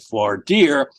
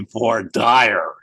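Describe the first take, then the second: First: It is said in the New York way. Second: It is said in the Alabama way. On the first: The speaker calls it wrong. "That's the way we pronounce it up here in New York" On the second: The speaker calls it right. "But in Alabama, it would be voir dire"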